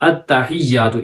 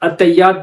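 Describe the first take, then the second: First: The h sound is clearly pronounced in the word. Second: The h sound is dropped from the word. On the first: The speaker calls it right. "हालांकि अत्तहियातु ये पढ़ना है" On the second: The speaker calls it wrong. "हा पढ़ ही नहीं रहे"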